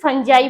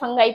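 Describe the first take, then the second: First: The middle consonant is a soft j sound. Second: The middle consonant is a hard g sound. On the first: The speaker calls it right. "नहीं, इसे फंजाई बोलते हैं" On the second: The speaker calls it wrong. "बच्चे अक्सर इसे गलत प्रोनाउंसिएट करते हैं, इसे फंगाई फंगाई पढ़ते हैं"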